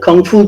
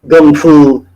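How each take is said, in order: First: The first word begins with a K sound. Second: The first word begins with a G sound. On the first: This is the form most people know. "with the K" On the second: This is the Cantonese form used in Jeet Kune Do circles. "with a G"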